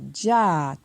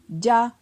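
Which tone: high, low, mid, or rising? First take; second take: rising; high. First: The syllable is said on a rising tone. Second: The syllable is said on a high tone. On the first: "Ton montant" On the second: "Ton haut"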